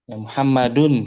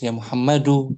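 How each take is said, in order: First: The name ends with an n sound. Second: The name ends on a vowel, without n. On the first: The speaker calls it wrong. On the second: The speaker calls it right.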